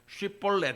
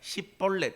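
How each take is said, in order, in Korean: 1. 이 단어는 'sh' 소리로 시작해요. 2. 이 단어는 's' 소리로 시작해요. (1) "쉽볼렛 해봐라" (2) "쉬 발음이 안 돼서"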